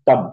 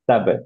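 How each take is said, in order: First: The lips stay closed with no release. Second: The lips close and release with a bounce. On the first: "আপনি যদি এখানে বসায় রাখেন, তাহলে কলকলা জেনারেট হবে না" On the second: "কলকলাটা দেওয়ার জন্য আমাদের লিপ দুইটা লেগে আবার ফেরত আসতে হবে"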